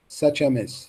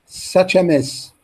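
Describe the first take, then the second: First: Said in the usual way. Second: "such a mess" said slowly with weight; drawn-out teacher demo of the phrase; slow, careful modelling for learners; slow model reading. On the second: Shown as a demonstration. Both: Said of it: "copy the stress and intonation".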